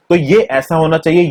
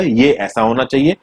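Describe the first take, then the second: First: Firm emphasis on ये; stress on ये. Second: Said in the usual way. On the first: Shown as a demonstration. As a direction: lean on ये, pointing it out.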